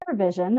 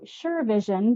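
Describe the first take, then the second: First: The first syllable does not sound like 'sure'. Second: The first syllable sounds like the word 'sure'. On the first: The speaker calls it right. "But no, it's SurVision" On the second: The speaker calls it wrong. "mispronouncing the name of your company consistently. I was calling you SureVision because I was sure I was right"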